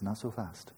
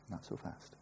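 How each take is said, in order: First: Said in the usual way. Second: A hushed whispered warning. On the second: Acted. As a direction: repeat it as an unvoiced whisper. Madhyamaka quoted, second take.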